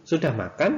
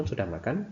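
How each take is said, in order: First: "sudah makan" with pitch rising on "makan", asked as a question; rising question tune. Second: "sudah makan" said as a statement, pitch dropping at the end; falling tune. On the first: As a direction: lift the end of "sudah makan" like asking. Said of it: "nah itu kalimat tanya". (intonasi naik pada "sudah makan", seperti bertanya) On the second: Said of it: "Misalnya kalau nadanya turun". (intonasi turun pada "sudah makan", seperti kalimat berita) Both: Shown as a demonstration.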